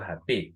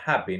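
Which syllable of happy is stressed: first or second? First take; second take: second; first. First: The stress is on the second syllable. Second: The stress is on the first syllable. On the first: The speaker calls it wrong. "no digo happy" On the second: The speaker calls it right. "the stress syllable is ha"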